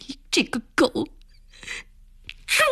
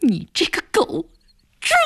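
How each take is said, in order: First: Cursing through a mild mock sob; sobbing curse. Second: Higher, rasping curse; hoarse cry. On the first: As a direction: spit out 你这个狗，猪 while half-crying. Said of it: "暖暖呜咽着， 骂着". (带着呜咽骂出你这个狗，猪) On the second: Acted. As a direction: tear the words 你这个狗，猪 out hoarsely. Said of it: "暖暖嘶声地叫着". (嘶声叫出你这个狗，猪)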